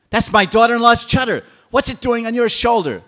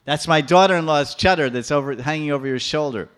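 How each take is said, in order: First: Much higher, loud public shout; old woman crying out to the residents, screaming; shrill outcry. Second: Loud, indignant accusation; old woman accusing Krishna, cross; angry accusation. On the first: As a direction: shout it for all Vrindavan. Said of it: "started crying very loudly". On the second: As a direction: jab the word chadar. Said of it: "She's becoming so angry". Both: Acted.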